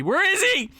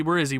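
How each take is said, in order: First: Panicked searching, pitched way up; freaking out. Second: Said in the usual way. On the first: Real, not acted. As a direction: voice leaps into a high frantic cry. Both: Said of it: "I'm freaking out".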